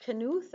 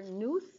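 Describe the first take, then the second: First: "Knuth" as two syllables, hard K first; K sounded in Knuth. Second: "Nuth", rhyming with tooth, no K sound; silent-K pronunciation. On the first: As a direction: say "Knuth" with the K voiced as its own syllable, kuh-NOOTH. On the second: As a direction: say "Nuth" as one syllable, starting straight on N. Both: Shown as a demonstration. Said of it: "how do you pronounce this".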